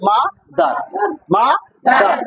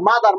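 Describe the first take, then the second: First: মাদার in two separate beats, মা then দার; split into syllables. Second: Said in the usual way. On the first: Shown as a demonstration. Teacher models how to pronounce মাদার, syllable by syllable. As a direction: leave a clear gap inside মাদার. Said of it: "মাদারকে উচ্চারণ করতে হবে কিভাবে".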